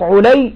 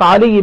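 First: The first vowel is u, like Ulay. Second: The first vowel is a, like Ali. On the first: "تنطق علي بضم العين" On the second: "تنطق علي بفتح العين"

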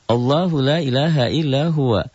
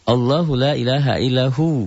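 First: The last word keeps its full ending, huwa. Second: The last word is cut short, ending in hu. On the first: The reciter carries on into the next phrase. "Kalau disambung" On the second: The reciter stops after this phrase. "kalau dihentikan"

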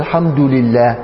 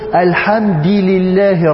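First: The first word ends in a 'u' vowel. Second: The first word ends in an 'i' vowel. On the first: The vowel shows the word is the subject. "ده مبتدأ مرفوع" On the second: The vowel copies the vowel of the following word. "فإنه أتبع الدال حركة اللام المكسورة بعدها"

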